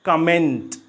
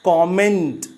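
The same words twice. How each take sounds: First: The first vowel is a short 'uh' sound. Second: The first vowel is an open 'o' sound. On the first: The speaker calls it wrong. "not comment" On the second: The speaker calls it right. "the right pronunciation of this word is comment"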